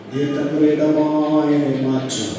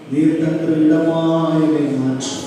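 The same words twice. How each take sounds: The two takes are said the same way.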